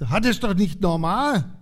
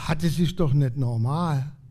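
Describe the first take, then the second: First: It is said somewhat louder. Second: It is said at a quiet, normal volume.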